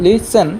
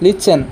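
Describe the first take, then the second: Both takes have the same delivery.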